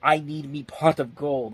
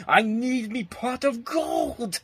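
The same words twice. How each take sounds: First: Leprechaun. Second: High, slow leprechaun scream. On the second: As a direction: drag it out like a greedy leprechaun. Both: Retold or imitated. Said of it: "whenever you hear him scream out".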